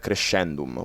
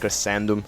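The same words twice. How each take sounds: First: It is said with an Italian pronunciation. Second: It is said with an English pronunciation. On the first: "in the Latin Italian slash... we m- pronounce it more like uh, crescendum, which you know, much more rougher on the scendum" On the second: "when you are pronouncing it in English, uh, it's like a cresc- crescendum"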